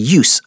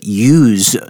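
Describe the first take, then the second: First: It has the noun pronunciation of the word. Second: It has the verb pronunciation of the word. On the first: It names the act of using something. "Use here is the noun" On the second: It is the action of using something. "here we're using it as a verb"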